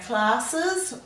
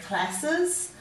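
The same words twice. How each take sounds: First: The first vowel is a long 'ar' sound. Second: The first vowel is a short 'a' sound. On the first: This is the everyday way of saying it. "You could say classes" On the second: This pronunciation helps with spelling. "if you want to make it easier to spell"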